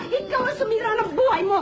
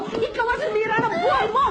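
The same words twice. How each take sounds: First: High shout stressing buhay; tearful shouted accusation. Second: High shout ending hard on mo; tearful shouted accusation. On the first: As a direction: yell it, leaning on buhay. (sigaw na diin sa buhay) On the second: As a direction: yell it again, punching mo. (sigaw na diin sa mo) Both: Acted. Repeated accusation.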